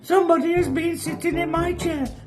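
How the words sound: The voice is small, high and squeaky. "in a small, squeaky baby voice"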